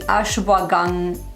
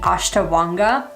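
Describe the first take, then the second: First: A 'w' sound follows 'ash', ending in 'gandha'. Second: A 't' sound follows 'ash', with no 'dh' ending. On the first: The speaker calls it right. "It's actually ashwagandha" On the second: The speaker calls it wrong. "I've been saying this wrong for like forever. I've been saying ashtawanga"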